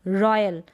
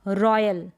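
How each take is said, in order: No difference in how they are said.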